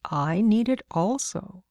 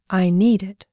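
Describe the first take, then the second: First: Put-on slow, measured reply to a child; lightly voiced adult reasoning with a child; patiently reasoning man. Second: Lightly voiced insistent little girl, louder; a child's emphatic claim; declaring little girl. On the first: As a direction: stretch it out, lilting up at the end. Man answers the insistent child. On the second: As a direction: declare it firmly, like a small child. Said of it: "she declared".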